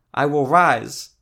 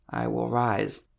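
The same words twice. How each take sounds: First: Loud, high, drawn-out cry; near shout. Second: Strained, effortful declaration; voice cracking with effort. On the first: Sick woman declares it to the cleric, practically shouting. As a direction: belt it out slowly, almost shouting. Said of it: "She was practically shouting". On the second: Sick woman repeats the cleric's words, strained with effort. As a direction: push the words out through a cracking voice. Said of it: "Her voice cracked with effort". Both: A narrator's reading.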